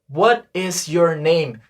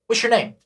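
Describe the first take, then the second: First: It is said slowly and fully. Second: It is said fast and run together.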